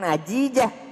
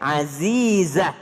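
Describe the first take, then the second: First: The consonants are said as j sounds. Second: The consonants are said as z sounds. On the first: The speaker calls it wrong. "Bukan Ajija" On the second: The speaker calls it right. "Beda ja dengan za"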